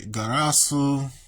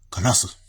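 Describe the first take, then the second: First: The final u vowel is clearly pronounced. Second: The final u vowel is dropped entirely. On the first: The speaker calls it wrong. "I'm just doing it because that's how, it, how it's written" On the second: The speaker calls it right. "they make their U silent when it's like that. Kras, Kras, like this"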